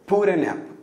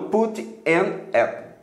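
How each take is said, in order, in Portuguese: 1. O t é um tap e as palavras se juntam. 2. O t é claro e as palavras ficam separadas. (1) "o T entre duas vogais" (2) "E não"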